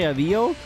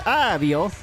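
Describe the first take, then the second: First: It is said in the speaker's everyday accent. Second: It is said with an Italian accent. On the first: "I say" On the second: "Italians say"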